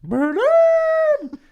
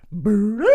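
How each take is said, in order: First: Very high, loud creature shriek; Grimace voice. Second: Short, higher creature call; Grimace voice. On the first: Grimace mocking the dead phone with a very high shriek. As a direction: squeal it out way up top. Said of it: "And he goes". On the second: Grimace answering the hostage, a short creature chirp. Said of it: "Grimace just goes". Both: Acted.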